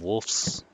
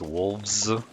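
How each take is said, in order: First: The consonant before the s is a voiceless f. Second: The consonant before the s is a voiced v. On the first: The speaker calls it wrong. "instead of wolves" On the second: The speaker calls it right. "with the voiced V"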